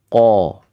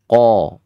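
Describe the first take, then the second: First: The syllable is said with rounded lips. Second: The syllable is said with rounded lips.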